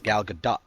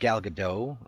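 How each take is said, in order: First: The final T of Gadot is pronounced. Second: The final T of Gadot is silent. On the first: The speaker calls it right. "with the T. You say the T" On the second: The speaker calls it wrong. "It's not Gal Gadot like French"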